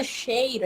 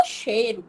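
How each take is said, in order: First: "cheiro" with the "ei" glide fully sounded; full diphthong. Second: "cheiro" as "chêro", no I glide; reduced diphthong. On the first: Teacher showing what nobody says, full diphthong. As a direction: keep the I in "cheiro". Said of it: "Ninguém fala cheiro". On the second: Teacher showing everyday speech, reduced diphthong. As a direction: drop the I from "cheiro". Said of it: "a gente fala cheiro". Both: Shown as a demonstration.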